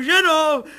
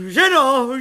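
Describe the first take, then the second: First: Even higher second call; calling out louder. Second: Loud high call to the wife. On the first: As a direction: call her again, more urgent. Calling wife again. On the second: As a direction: call her in. Calling wife. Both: A narrator's reading.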